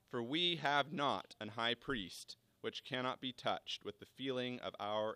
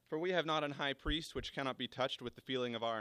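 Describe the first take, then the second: First: It is read more slowly. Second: It is read at a normal pace.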